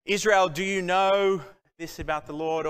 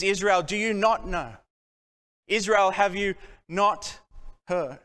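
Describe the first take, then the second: First: Said in the usual way. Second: "not" leaned on, the question pressed; stress on not. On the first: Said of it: "he doesn't say". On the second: Shown as a demonstration. Prophet rebuking Israel, stressing "not". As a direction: hit "not" hard in both questions. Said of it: "No, he says".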